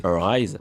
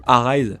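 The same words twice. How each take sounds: First: "Arise" with a muted first vowel, like "uh-RISE"; corrected pronunciation. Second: "Arise" with an open first A, "ah-RISE", louder; mocked old mispronunciation. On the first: Real, not acted. Tutorial host types the game title, saying "Arise" as "uh-rise". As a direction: say "Arise" as "uh-rise", unstressed start. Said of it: "se sont foutus de ma gueule". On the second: Host owns up to teased mistake, louder "ah-rise" for "Arise". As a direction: say "Arise" loudly as "AH-rise", quoting your mistake. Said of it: "vu que je disais".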